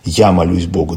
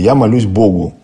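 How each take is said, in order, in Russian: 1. Ударение падает на слово «я». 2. Ударение падает на слово «Богу». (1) "это уже «я»" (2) "Здесь акцент на слове «Бог»"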